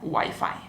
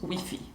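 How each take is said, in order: First: It is said the way some Latin Americans say it. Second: It is said the way people in Spain say it. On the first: "en algunos países de Latinoamérica se pronuncia wifi" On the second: "en España lo pronunciamos wifi"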